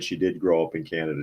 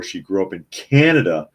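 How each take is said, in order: First: Said in the usual way. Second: Canada hit hard and loud, falling at the end; emphatic point. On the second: Real, not acted. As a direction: slam home that she grew up in Canada.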